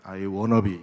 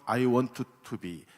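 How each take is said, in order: First: Want to is blended into one short wanna. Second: Want to is said as two full words.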